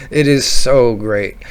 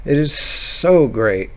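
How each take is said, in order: Both takes have the same delivery.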